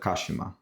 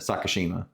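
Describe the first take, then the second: First: It is said with Japanese syllable-timed vowels. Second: It is said with American English vowels and stress. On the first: The speaker calls it right. "you're gonna say it all at once" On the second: The speaker calls it wrong. "instead of"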